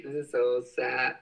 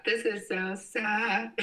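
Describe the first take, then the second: First: Said in the usual way. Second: Lifted high and slowed, whiny; exaggerated high mopey whine; mock sad high voice. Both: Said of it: "repeats it in a put-on voice".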